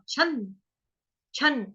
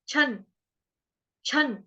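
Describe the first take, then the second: Both takes have the same delivery.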